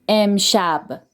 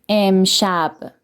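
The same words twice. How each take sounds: No difference in how they are said.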